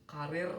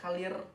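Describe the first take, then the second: First: The middle consonant is an r sound. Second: The middle consonant is an l sound. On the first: The speaker calls it right. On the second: The speaker calls it wrong.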